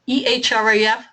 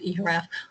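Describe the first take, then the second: First: The name is said in a long form. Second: The name is said in a short form. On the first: The speaker calls it wrong. "that's far too long to pronounce" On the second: The speaker calls it right. "this is the way we pronounce it"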